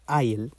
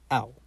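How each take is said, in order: First: The word is a full, clear 'I'll'. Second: The word is a short, reduced 'ow'. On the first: The speaker calls it wrong. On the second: The speaker calls it right.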